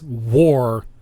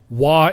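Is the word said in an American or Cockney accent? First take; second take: American; Cockney. First: The word is said in an American accent. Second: The word is said in a Cockney accent.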